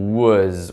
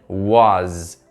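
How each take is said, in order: First: The vowel is said with a closed sound. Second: The vowel is said with an open sound. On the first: "um som fechado" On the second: "Você pode fazer um som aberto também"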